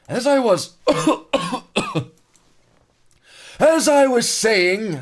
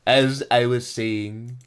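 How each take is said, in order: First: Much higher, louder, slow mock French narrator. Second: Said in the usual way. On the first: Streamer restarting the narration in a mock French narrator voice. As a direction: ham up the SpongeBob French narrator. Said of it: "Fucking French narrator from SpongeBob". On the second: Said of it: "You suck at French narrator".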